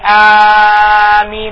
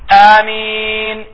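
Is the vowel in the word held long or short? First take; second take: long; short. First: The vowel is drawn out very long. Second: The vowel is held only briefly. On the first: The speaker calls it wrong. "don't over elongate it by saying Ameen. That's incorrect" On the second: The speaker calls it right. "It's supposed to be Ameen"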